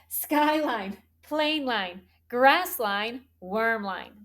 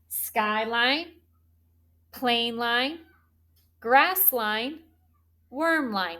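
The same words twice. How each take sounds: First: The list is said at a quicker pace. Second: The list is said at a normal pace.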